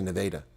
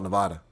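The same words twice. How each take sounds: First: The name is said the local Iowa way. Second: The name is said the usual state way. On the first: This is how the Iowa town's residents say it. "They say Nevada" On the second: This is how the state is called. "they don't call it Nevada"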